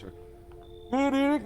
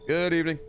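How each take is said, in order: First: It is said in a put-on character voice. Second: It is said in the speaker's natural voice. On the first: The speaker calls it right. "Let me do a proper voice" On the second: The speaker calls it wrong. "Oh, sorry. Excuse me"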